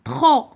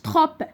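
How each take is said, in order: First: The final P sound is silent. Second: The final P sound is pronounced. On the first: The speaker calls it right. "Le P muet" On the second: The speaker calls it wrong. "ما قلتش trop"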